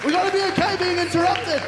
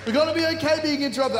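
First: High, loud proclamation; preaching at full force. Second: Quicker, still loud restatement; fast repeat. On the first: Preacher urging the congregation, full force. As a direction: hammer the point home. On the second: Preacher repeating his point to the congregation, fast. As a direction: rattle it off again quickly. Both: Real, not acted.

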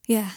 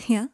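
First: "Yeah." falling as a settled answer; confirming fall. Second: "Yeah?" rising as a question; questioning rise. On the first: Harry answers Malfoy, confirming fall. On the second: Malfoy checks with Harry, questioning rise. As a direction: lift "Yeah?" at the end, asking. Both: A narrator's reading.

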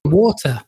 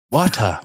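First: "Water" with no R, British RP. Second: "Water" with an American flap and R. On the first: British guest shows his way of saying water. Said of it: "water instead of water". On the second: American host imitates his own way of saying water. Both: Shown as a demonstration.

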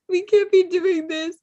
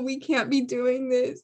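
First: Higher, louder, through laughter; laughing higher. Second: Said in the usual way. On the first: Real, not acted. Host scolding herself while laughing, higher and louder. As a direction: repeat it cracking up.

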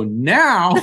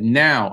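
First: Higher, louder incredulous "Now?"; startled echo. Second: Said in the usual way. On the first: Retold or imitated. Guest retelling his reaction to his manager, startled. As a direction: throw it back in disbelief.

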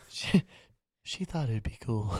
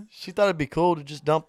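First: Soft, low-key put-on voice. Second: Said in the usual way. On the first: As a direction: say it very softly, as a joke. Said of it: "So you're [name] now?". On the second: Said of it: "back to my normal voice".

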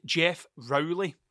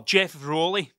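First: Rowley said as ROW-lee, rhyming with "cow"; alternative pronunciation. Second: Rowley said as ROLE-ee, with a long O; corrected pronunciation. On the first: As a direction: say "Rowley" with an "ow" in the first syllable. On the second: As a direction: correct "Rowley" to rhyme with "holy". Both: Shown as a demonstration. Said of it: "That's how you pronounce it".

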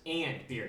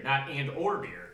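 First: "and beer" con AND marcato, lento; stress on AND. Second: "Not and or beer" with "and" stressed slowly; slow, pointed correction on "and". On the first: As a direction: hit "and" in "and beer" firmly. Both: Shown as a demonstration.

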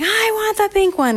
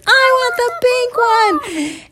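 First: Put-on high-pitched kid's whine; demanding child. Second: Very high, slow, loud demand; hammed-up kid's wail, stretching every word; louder rival child. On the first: Bar tussles over the pink straw, demanding in high voice. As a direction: insist in a high little voice. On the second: Candy fights Bar for pink straw, in drawn-out yell.

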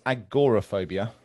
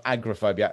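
First: Agoraphobia with a clear GOR as its second syllable; correct pronunciation. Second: Agoraphobia squashed to AG-ra-phobia; mispronunciation. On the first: Co-host quickly correcting the word, correct pronunciation of agoraphobia. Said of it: "I will just quickly correct". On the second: Co-host showing the common mistake, agoraphobia mispronounced as agra-phobia. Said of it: "Most people mispronounce". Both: Shown as a demonstration.

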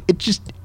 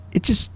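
The two takes are said the same way.

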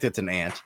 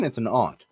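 First: "ant" with the flat short a of "cat"; "ant" rhyming with "pant". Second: "aunt" with an open ah, as "ahnt"; "aunt" pronounced with the vowel of "father"; broad-a aunt. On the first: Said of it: "if it's an insect". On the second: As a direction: say "aunt" as "ahnt", distinct from the insect. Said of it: "But if it's a person". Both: Shown as a demonstration.

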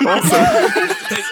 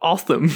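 First: Awesome. drawn out slow and high in a teasing mock British accent. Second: Said in the usual way. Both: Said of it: "Are you making fun of my, my accent?".

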